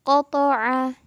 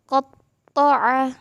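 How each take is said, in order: First: The middle consonant is short and unstressed. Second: The middle consonant is doubled and pressed. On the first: "kalau yang biasa itu kan kita cuma bacanya qata'a gitu" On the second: "tapi kalau ada tasydidnya berubah menjadi qata'a gitu"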